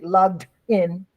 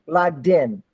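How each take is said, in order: First: The two words are said with a break. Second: The two words run together without a break. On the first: The speaker calls it wrong. "don't say logged in" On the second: The speaker calls it right. "you got to connect"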